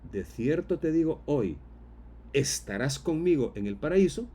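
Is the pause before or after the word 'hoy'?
after. The pause comes after the word hoy.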